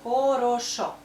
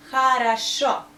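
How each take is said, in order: First: "Хорошо" with a full O in every syllable; unreduced O's all through "Хорошо"; pronounced as spelt. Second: "Хорошо" with A, A, then stressed O; unstressed O's in "Хорошо" become A; correct vowel reduction. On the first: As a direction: say "Хорошо" as kho-ro-SHO, louder. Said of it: "It's O". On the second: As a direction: say "Хорошо" as kha-ra-SHO, loud and clear. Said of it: "So we pronounce O like O, only here". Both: Shown as a demonstration.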